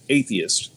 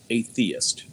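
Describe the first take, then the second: First: The stress falls on the first syllable. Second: The stress falls on the 'theist' part. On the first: It names a person who rejects belief in God. "instead of atheist" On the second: It names a person who lives without theism. "Just putting the emphasis slightly different"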